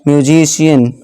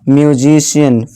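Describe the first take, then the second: The two takes are said the same way.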